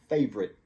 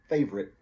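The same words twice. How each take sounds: First: The word is said with two syllables. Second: The word is said with two syllables.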